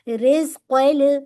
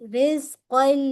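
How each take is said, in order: First: The Q sound has an echoing bounce. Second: The Q sound blends smoothly without bounce. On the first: The speaker calls it wrong. "बाउंस नहीं कीजिएगा, रिज़्क़ल ऐसे नहीं" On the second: The speaker calls it right. "बाउंस नहीं कीजिएगा"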